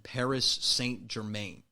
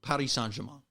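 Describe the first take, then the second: First: It is said with a plain English accent. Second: It is said with a French accent. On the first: The speaker calls it wrong. "It just sounds rough that way" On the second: The speaker calls it right. "you got to do the French accent"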